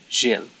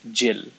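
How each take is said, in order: First: The name is said with a French sound. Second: The name is said like English Jill. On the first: This is the name as written on the certificate. The speaker calls it right. "my actual name is supposed to be Gilles" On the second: This is how people in Malta say the name. The speaker calls it wrong. "they pronounce it as Jill instead"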